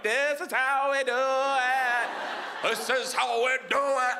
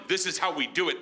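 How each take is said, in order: First: Slow, high, stretched-out chorus; mocking crew echo. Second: Said in the usual way. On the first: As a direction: drag every word out like a goofy backup crew. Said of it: "my crew's behind him like".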